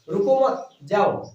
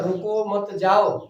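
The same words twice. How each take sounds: First: The pause comes after मत. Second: The pause comes after रुको.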